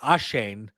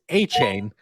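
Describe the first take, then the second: First: The middle consonant is a soft 'sh' sound. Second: The middle consonant is a 'ch' sound. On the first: The speaker calls it wrong. "I was pronouncing it Ashane" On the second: The speaker calls it right. "apparently it is A chain"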